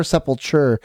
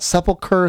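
First: Sepulture, ending in a -cher sound; correct word sepulture. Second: Sepulcher, ending in a -ker sound; wrong word sepulcher. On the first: Correcting himself for co-host, sepulture ending in cher. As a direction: say sepulture, closing on cher not ker. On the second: Explaining to co-host which word it is not, sepulcher with a ker ending. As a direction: say sepulcher, the burial-place word, with a final ker. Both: Shown as a demonstration. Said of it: "not sepulcher".

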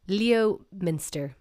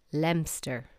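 First: "Leominster" as written, LEE-oh-min-ster; spelling pronunciation. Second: "Leominster" squeezed to LEM-ster; two syllables for "Leominster": LEM-ster; local pronunciation. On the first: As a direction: draw out "Leominster" slowly in four syllables. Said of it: "what I would say". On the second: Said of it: "It is not Leominster. It's". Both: Shown as a demonstration.

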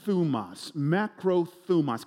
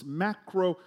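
First: Macrothumos spelled out slowly, syllable by syllable; broad singsong kids theatre. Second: Said in the usual way. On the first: Shown as a demonstration. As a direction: Macrothumos drawn out slow for the class to repeat. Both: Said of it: "Can you say that with me".

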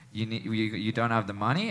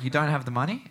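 First: Retold quiet menace. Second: Retold disbelief. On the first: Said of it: "comes up closer to me". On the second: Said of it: "And the mood shifts".

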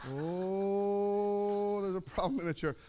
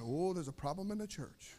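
First: A very long drawn-out "Oh" before the rest; mock congregation reaction. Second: Low, hushed mock murmur; soft aside imitating worried churchgoers; murmuring congregation. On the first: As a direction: stretch "Oh" on one held note, mock alarm. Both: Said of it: "Everybody's now going".

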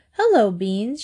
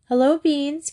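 First: Said in the usual way. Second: Higher echoed greeting; higher echo of Hello, Beans; echoing brightly. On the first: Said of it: "she said". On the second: A narrator's reading. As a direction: echo her greeting to the dog, lifted up. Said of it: "Kathy echoed".

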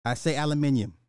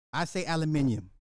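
The two takes are said the same way.

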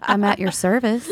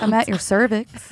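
First: Naive innocence. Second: Sultry voice. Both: Pretend. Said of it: "You sound so innocent".

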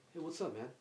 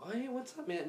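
First: Subdued greeting. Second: High casual greeting. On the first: Mature brother's greeting. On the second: Greeting the brother. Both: Retold or imitated.

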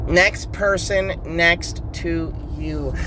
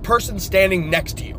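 First: Slow mocking repeat of "Next person next to you". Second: Said in the usual way. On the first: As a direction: echo it back slowly, teasing. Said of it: "that is not grammatically correct".

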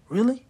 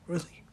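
First: High, loud disbelieving really; incredulous yelp. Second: Said in the usual way. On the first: Real, not acted. Fan yelling at the Knicks in loud high disbelief.

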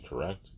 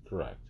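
First: "correct?" asked with a soft rising tune; questioning tune. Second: "Correct." said with a short falling tune; answering tune. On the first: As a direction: ask "correct?" lightly up at the end. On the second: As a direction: confirm "Correct." firmly, dropping at the end. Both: Shown as a demonstration.

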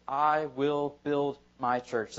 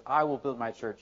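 First: Every word slow and weighted, "I will build my church" with the "I" stressed; slow emphatic quote. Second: Said in the usual way. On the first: Shown as a demonstration. Pastor reading Jesus' words to the church, slowly stressed. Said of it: "Look at what he says". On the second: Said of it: "He says".

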